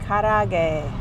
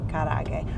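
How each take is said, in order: First: The second A sound is drawn out long. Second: The second A sound is short. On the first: "There's two A sounds there" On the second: "I guess they just say karage"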